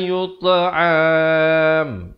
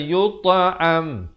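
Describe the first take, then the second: First: The ending is drawn out at the stop. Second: The ending is cut short at the stop. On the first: The speaker calls it wrong. "jangan panjang... Itu salah" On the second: The speaker calls it right. "Terus berhenti"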